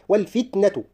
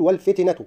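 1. لا يلي صوت التاء حركة. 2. يلي صوت التاء حركة. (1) "فيها عدم تحريك التاء" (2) "لا أقول والفتنة"

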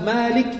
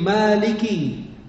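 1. Huruf k terakhir tidak diikuti vokal. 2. Huruf k terakhir diikuti vokal i. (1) "dikasih sukun, itu salah" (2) "kan kafnya ada kasrah"

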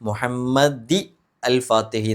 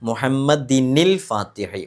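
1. രണ്ട് വാക്കുകളെ ഒരു പുതിയ സ്വരാക്ഷര തുടക്കം വേർതിരിക്കുന്നു. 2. രണ്ട് വാക്കുകളെ n ശബ്ദം ബന്ധിപ്പിക്കുന്നു.

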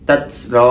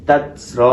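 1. t-এর শেষে জোরালো s-এর মতো শিস শোনা যায়। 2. t-এর শেষে জোরালো s-এর মতো শিস শোনা যায়।

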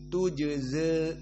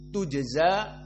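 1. Vokal akhirnya condong sedikit ke e. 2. Vokal akhirnya adalah bunyi a terbuka. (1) "Al-Imalah As-Sughra" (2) "Pada yang dibaca oleh jumhur alif"

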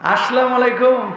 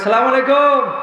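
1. শুরুর 'as' ধ্বনিটি পুরোপুরি উচ্চারণ করা হয়। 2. শুরুর 'as' ধ্বনিটি বাদ দেওয়া হয়। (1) "বিশুদ্ধ সালামটাও শেখে নাই" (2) "কয় সালাম আলাইকুম"

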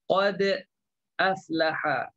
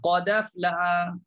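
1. Hentian glotal memisahkan qad dari aflaha. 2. Qad langsung menyambung ke aflaha tanpa hentian. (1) "Jadi dia sebenarnya agak susah" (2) "Sekali turun tu dah selesai habis"

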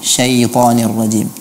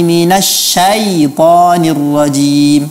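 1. Vokalnya terdengar seperti 'e'. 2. Vokalnya terdengar seperti 'a'. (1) "fathahnya menjadi e" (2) "Dia harus dibaca dengan fathah"

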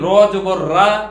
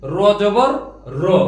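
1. শেষ স্বরধ্বনিটি দীর্ঘ খোলা 'aa'। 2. শেষ স্বরধ্বনিটি ছোট 'o'-এর মতো একটি শব্দ। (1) "আমরা এটা বলিনি র জবর রা, এভাবে বলিনি।" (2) "অকার যোগে"

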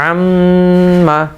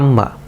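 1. নাসিক ধ্বনিটি বেশি সময় ধরে রাখা হয়। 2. নাসিক ধ্বনিটি দ্রুত বলা হয়, ধরে রাখা হয় না। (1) "আমরা একটু ধরে রেখে সময় দিলাম এবং চেপে ধরলাম" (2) "অনেকে দ্রুত বলি আম্মা"

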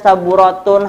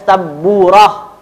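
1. Kata ini berakhir dengan akhiran -tun penuh. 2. Kata ini berakhir dengan bunyi h yang lembut. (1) "jangan dibaca saburatun" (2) "Jadi bacanya saburah"

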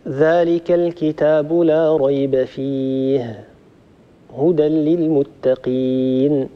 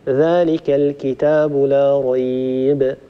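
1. الوقف يأتي مباشرة بعد كلمة 'fihi'. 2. الوقف يأتي مباشرة بعد كلمة 'rayb'. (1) "أو أن نقف هكذا" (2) "يمكن أن نقف هكذا ذلك الكتاب لا ريب، ثم نبدأ فيه هدى للمتقين"

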